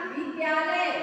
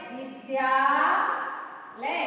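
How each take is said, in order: First: Said in the usual way. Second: विद्यालय very slow, long held द्या, then लय; drawn-out breakdown. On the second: Shown as a demonstration. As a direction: split विद्यालय with a long stretch and a gap. Teacher splits word for sandhi. (विद्यालय को लंबा खींचकर, तोड़कर बोलना)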